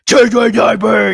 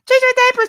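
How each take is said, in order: First: It is said in a deep, grown-man voice. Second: It is said in a high, childlike voice. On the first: The character sounds like an old man. "I'll just deepen my voice as a, like a grown man" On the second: The character sounds like a baby. "the baby voices"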